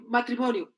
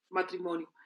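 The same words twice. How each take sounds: First: Life demand announced from a checklist; expectation called out. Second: Lower, softer tick-off of the demand; dutiful echo. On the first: Everyone expects it of us, announced as a demand. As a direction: call out the next requirement clearly. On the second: Answering what everyone expects, low dutiful echo. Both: Acted. Expectation, then compliance ticked off.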